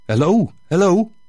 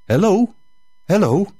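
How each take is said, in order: First: A lightly voiced English-speaking priest, a touch higher; tentative call from the priest. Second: Priest calling again, more insistent. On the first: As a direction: hail someone hidden, a little higher than the narration. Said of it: "Ineens hoorde ik een stem". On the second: Acted. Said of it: "riep hij opnieuw".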